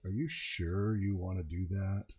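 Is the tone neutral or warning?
warning. It sounds like a loaded, warning question. The question warns against doing it. "Now the G M's really going, you don't want to do it, don't do it"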